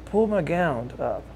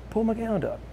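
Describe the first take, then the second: First: Confidential request. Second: Insistent hushed request. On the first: Paralyzed friend's confidential request, first take. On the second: Friend repeats confidential request, higher. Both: Retold or imitated.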